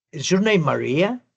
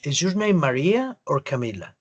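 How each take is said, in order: First: Is your name Maria? ending on a rise; rising yes-no tune. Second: Is your name Maria or Camila? dropping at the end; falling tune. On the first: Teacher showing a yes-no question's rising tune. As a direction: let Maria lift at the end. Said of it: "preguntas a las que la respuesta es sí o no". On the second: Teacher contrasting a falling question tune. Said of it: "terminé abajito". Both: Shown as a demonstration.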